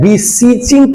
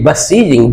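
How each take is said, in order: First: The first syllable has a long 'ee' vowel. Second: The first syllable has a short 'uh' vowel. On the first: The speaker calls it wrong. "यहां पर आप कहेंगे B E होता है, beseeching क्यों नहीं कहा?" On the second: The speaker calls it right. "ब का उच्चारण होगा beseeching"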